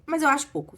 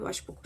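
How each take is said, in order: First: Raised, higher emphatic opinion; emphatic verdict. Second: Much softer murmured repeat; quiet aside. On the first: Teller judging the husband's fate, emphatic and raised. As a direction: state it firmly and a bit louder. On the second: Teller repeating her verdict to herself, very soft. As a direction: drop it almost under the breath. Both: Real, not acted.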